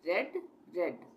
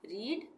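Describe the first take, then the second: First: "रेड" with a short e vowel; past-form pronunciation. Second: "रीड" with a long ee vowel; present-tense pronunciation. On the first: Teacher showing how same spelling changes sound, "रेड" with short e. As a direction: say "रेड" like the colour red. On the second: Teacher showing how the first form is pronounced, "रीड" with long ee. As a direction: say "रीड" to rhyme with need. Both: Shown as a demonstration. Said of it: "इसका pronunciation होगा".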